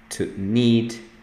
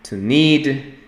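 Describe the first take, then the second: First: It is said slowly and calmly. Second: It is said quickly and briskly.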